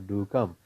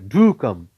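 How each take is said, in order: First: The word do is said weakly, without stress. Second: The word do is said with strong stress. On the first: The speaker calls it wrong. "instead of saying" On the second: The speaker calls it right. "you should say"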